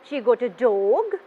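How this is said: The pitch rises at the end. "At the end of my sentence, my voice going up"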